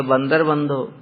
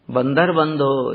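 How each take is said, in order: First: Said in the usual way. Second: बंदर बंधो drawn out slowly, बंदर stressed; slow emphasis. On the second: Shown as a demonstration. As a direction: savour the name बंदर बंधो word by word, slowly. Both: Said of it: "मैया ने उनका नाम दिया बंदर बंधो".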